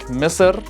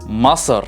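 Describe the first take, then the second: First: The first vowel is an 'i' sound. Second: The first vowel is an 'a' sound. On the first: This is how other dialects say it. "different dialect may pronounce it differently, like Misr" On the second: This is how the Iraqi dialect says it. "in the Iraqi dialect we would say Masr"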